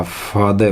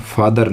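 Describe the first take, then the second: First: "फादर" said as "faa-de", r silent; r-less "फादर"; correct pronunciation. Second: "फादर" with the final r sounded; Indian-style "फादर", r clearly said; wrong pronunciation. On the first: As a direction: drop the r, end "फादर" on a schwa. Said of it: "फादर होता है". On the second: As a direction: pronounce the r ending of "फादर". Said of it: "फादर नहीं होता". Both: Shown as a demonstration.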